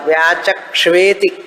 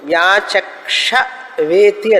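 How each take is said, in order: First: Ksh runs straight into v without a vowel. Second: A full vowel separates ksh from v. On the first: The speaker calls it right. "కలిపి చదవాలి" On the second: The speaker calls it wrong. "వ్యాచక్ష వేతి అని ఉన్నది"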